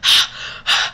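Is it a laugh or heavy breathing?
breathing. It is loud heavy breathing.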